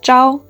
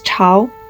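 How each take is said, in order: First: The word begins with a soft 'j'-like sound. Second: The word begins with a breathy 'ch' sound. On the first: It means before dawn. "When it pronounced as zhao, it means before dawn" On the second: It means dynasty. "But when it pronounced as chao, it means dynasty"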